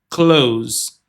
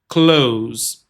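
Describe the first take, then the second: No difference in how they are said.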